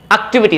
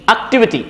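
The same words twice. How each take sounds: First: "activity" as ak-tee-vee-tee, full i vowels; wrong pronunciation. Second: "activity" as ak-TIV-i-tee, short i vowels; correct pronunciation. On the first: Teacher showing learners the mistake, "activity" as ak-tee-vee-tee. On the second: Teacher correcting for learners, "activity" as ak-TIV-i-tee. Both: Shown as a demonstration. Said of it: "is not activity".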